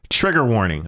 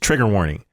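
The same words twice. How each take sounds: First: It is said in a casual, ordinary tone. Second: It is said in a grave, serious tone.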